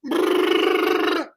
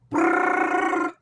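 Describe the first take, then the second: First: Slow rolled brrr trill; rolled r machine gun sound. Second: High rolled brrr trill; rolled r exercise. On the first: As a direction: roll the tongue like a machine gun. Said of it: "Everyone has a different machine gun sound". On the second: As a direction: trill the tongue, machine gun style. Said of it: "I roll my tongue". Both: Shown as a demonstration.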